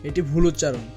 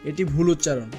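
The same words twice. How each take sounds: No difference in how they are said.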